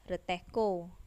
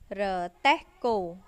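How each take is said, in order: First: The word is said fast, syllables run together. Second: The word is said slowly, syllable by syllable.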